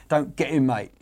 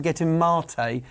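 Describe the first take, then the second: First: "don't get him mate" with mate said like the word for a pal; "mate" as the English word for friend, the wrong one; friend reading. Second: "get him mate" slow, with mate as maté, the tea; tea reading, slow. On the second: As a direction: slowly say "mate" as mah-tay, the drink. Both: Shown as a demonstration. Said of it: "if you ever are interviewing Gus Poyet".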